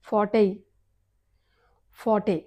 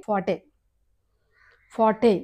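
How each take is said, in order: The two takes are said the same way.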